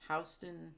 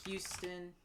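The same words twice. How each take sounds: First: Houston said as HOW-ston, rhymes with "house"; Houston starting like "ow", HOUSE-tun; Houston pronounced OW-stun; corrected try at the name. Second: Houston said as YOO-ston, like the Texas city; Houston with a "hew" sound at the start; Houston pronounced YOO-stun; first try at the name. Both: Real, not acted. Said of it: "I don't know how they pronounce it there".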